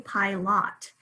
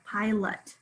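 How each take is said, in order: First: The second syllable has a full vowel. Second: The second syllable has a reduced uh vowel. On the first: The speaker calls it wrong. "We don't say pilot" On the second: The speaker calls it right. "that second syllable has the schwa"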